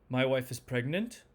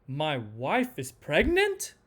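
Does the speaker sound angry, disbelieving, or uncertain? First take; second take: uncertain; disbelieving. First: The pitch moves only a little. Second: The pitch swings widely down and back up. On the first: The speaker is unsure about the news. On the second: The speaker can hardly believe the news.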